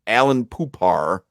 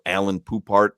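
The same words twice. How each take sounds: First: Poupart with a silent t; careful repeat of Poupart, no t at the end; corrected pronunciation. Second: Poupart with the final t sounded; unsure attempt at Poupart, hard t at the end; mispronounced surname. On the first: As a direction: draw out Poupart slowly, ending "poo-PAR". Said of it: "How is it, Solana?". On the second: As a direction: say Poupart as spelt, ending on a t. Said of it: "never know how to pronounce his name". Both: Real, not acted.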